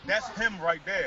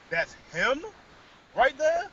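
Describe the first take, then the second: First: Said in the usual way. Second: "That's him right there?" with RIGHT THERE rising high; disbelieving echo, "there" lifting into a question; incredulous echo question. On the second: Retold or imitated. Teller questions her, echoing words.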